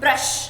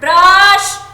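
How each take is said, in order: First: The vowel is kept short. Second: The vowel is drawn out long. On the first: The speaker calls it right. "हम क्या बोलते हैं" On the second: The speaker calls it wrong. "आप ये नहीं बोलते ब्रश, कोई ऐसा बोलता है क्या"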